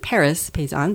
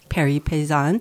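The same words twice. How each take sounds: First: The name is said with an American accent. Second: The name is said with a French accent. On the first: "as an American would pronounce it" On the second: "but Paris Paysan"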